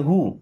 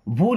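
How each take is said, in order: First: The word begins with a plain h sound. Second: The word begins with a breathy b sound. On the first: The speaker calls it right. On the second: The speaker calls it wrong. "भू नहीं पढ़ते"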